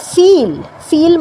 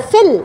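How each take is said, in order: First: ফিল as "feel", slow with a long ee. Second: ফিল as "fill", with a short i. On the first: Teacher explaining feel means experience, long ee vowel. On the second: Teacher explaining fill means to fill up, short i vowel. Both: Shown as a demonstration. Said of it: "দুটো word কিন্তু আলাদা".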